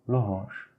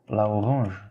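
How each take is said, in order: First: The article's vowel is dropped into the noun. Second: The article's vowel is kept before the noun. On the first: The speaker calls it right. "Et ça fait l'orange" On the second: The speaker calls it wrong.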